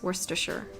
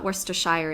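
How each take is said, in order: First: The last syllable sounds like 'sure'. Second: The last syllable sounds like 'shire'. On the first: The speaker calls it right. "it's Worcestershire in, in English" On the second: The speaker calls it wrong. "It's not Worcestershire"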